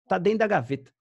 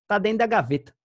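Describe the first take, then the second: The two takes are said the same way.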